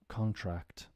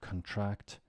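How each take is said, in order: First: The stress is on the first syllable. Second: The stress is on the second syllable. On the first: It is used as a noun. "think of it now as nouns" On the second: It is used as a verb. "to contract"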